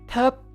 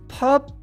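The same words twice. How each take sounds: The two takes are said the same way.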